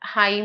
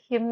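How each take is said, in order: First: The vowel sounds like 'eye'. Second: The vowel sounds like 'ih'. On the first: The speaker calls it wrong. "ഹൈം എന്ന് വായിക്കത്തില്ല" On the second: The speaker calls it right. "ഹിം എന്നാണ് വായിക്കുന്നത്"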